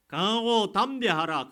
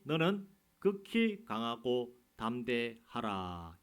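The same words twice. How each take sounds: First: Much higher and louder, slow, hammering 강하고 with a falling end; forceful preaching. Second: Slow, weighty scripture read, each word drawn out; solemn slow reading. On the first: Real, not acted. Pastor urging the congregation, loud and slow. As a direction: shout the command like a rallying cry. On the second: Acted. Pastor reading God's words to Joshua, slow and solemn. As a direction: lay the command down slowly and heavily.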